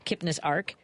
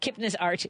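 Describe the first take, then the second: First: The last word ends with a k sound. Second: The last word ends with a ch sound. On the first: "Do I say arc?" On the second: "it probably makes more sense to say arch"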